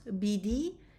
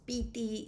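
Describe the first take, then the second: First: It is said with b and d sounds. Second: It is said with p and t sounds. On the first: This is the Western Armenian form. "I pronounce bidi in Western Armenian" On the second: This is the Eastern Armenian form. "I pronounce piti in Eastern Armenian"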